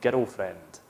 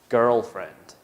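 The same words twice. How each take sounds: First: It is said in a Scottish accent. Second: It is said in a neutral accent.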